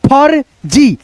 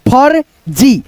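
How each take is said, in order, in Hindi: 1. आधी r ध्वनि j से पहले आती है। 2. आधी r ध्वनि j से पहले आती है।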